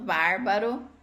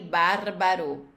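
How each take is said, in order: First: The middle R is said the Brazilian way. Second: The middle R is said the Italian way. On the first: The speaker calls it wrong. "Às vezes escapa e eu acabo falando" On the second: The speaker calls it right. "tem que prestar atenção pro R no meio também sair"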